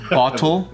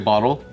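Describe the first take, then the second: First: The middle consonant is a clear t. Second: The middle consonant sounds like a d. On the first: This is how Canadians say it. "they say bottle, so they say it properly" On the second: This is how Americans say it. "we say bottle, like B O D D L E"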